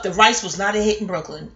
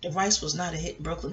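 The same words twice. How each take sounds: First: Measured, declarative storytelling line; book title sound. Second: Lower, softer title read; chapter title reading. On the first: Real, not acted. Storyteller admitting the party rice failed, like a chapter title. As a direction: state it like a chapter heading. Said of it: "why did I sound like a book title or a chapter title?". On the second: Shown as a demonstration. Storyteller trying out a chapter title, lower and hushed. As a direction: intone it quietly as a book's chapter title. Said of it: "Don't that sound like it leads a ti-, a chapter?".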